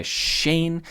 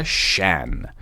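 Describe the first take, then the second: First: SHANE with a clear "ay" vowel; long-A Shane. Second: SHAN with an open "aeh", drawn out; short-vowel Shan. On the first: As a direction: say SHANE like the letter A, silent E. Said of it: "Se não tivesse E no final". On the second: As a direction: say SHAN with no "ay" glide. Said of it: "Se não tivesse E no final, seria". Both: Shown as a demonstration.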